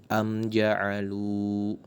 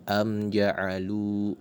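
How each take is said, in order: No difference in how they are said.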